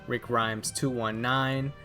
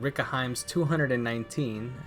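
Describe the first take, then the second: First: The name is two clear words, digits read separately. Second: The name is run together, digits read as nineteen. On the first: The speaker calls it right. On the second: The speaker calls it wrong.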